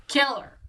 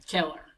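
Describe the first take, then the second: First: Higher, louder command "Kill her"; mock soldier ordering a killing; barked order. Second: Said in the usual way. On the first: Rebel soldiers order her killed.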